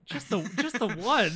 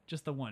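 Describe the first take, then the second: First: Loud, high incredulous echo; mock disbelief. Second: Said in the usual way. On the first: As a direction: repeat it loudly, as if astounded. Incredulous repeat of bartender's answer.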